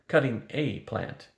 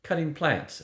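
First: Slow correction leaning on "a"; stress on A. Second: Said in the usual way. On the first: A narrator's reading. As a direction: draw out "a" to mark just one. Corrects plural to a single plant.

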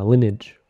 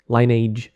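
First: Lineage as LIN-ij; short-vowel pronunciation. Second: Lineage as LINE-age; long-vowel pronunciation. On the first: Gamer offering the other pronunciation, Lineage said LIN-ij. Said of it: "or whatever you pronounce it". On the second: Gamer recalling the game from childhood, Lineage said LINE-age. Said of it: "I pronounce it Lineage". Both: Shown as a demonstration.

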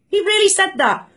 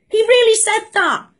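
First: Said in the usual way. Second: Stunned he said it; really said high in disbelief; incredulous. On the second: Real, not acted. Disbelief at the PM's claim.

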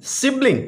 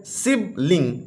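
First: Said in the usual way. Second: सिबलिंग in two separate beats, sib, ling; syllable by syllable. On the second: Shown as a demonstration. Teacher showing a two-syllable word, syllable by syllable. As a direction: leave a gap in सिबलिंग between sib and ling. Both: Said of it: "two syllable word है".

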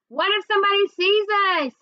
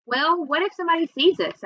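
First: Worried holler, pitched high; high, slightly louder narrated shout. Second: Said in the usual way. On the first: A narrator's reading. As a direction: call it out urgently across the street. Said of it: "I hollered out the window".

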